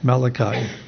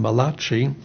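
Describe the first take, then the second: First: The name is said with an English sound. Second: The name is said with an Italian-like sound. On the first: "and in English, Malachi" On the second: "Some people think he was an Italian prophet. They call him Malachi"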